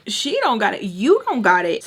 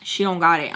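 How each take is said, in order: First: Sassy, louder retort; indignant echo. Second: Said in the usual way. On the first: Retold or imitated. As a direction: throw his words back indignantly. Throws his words back.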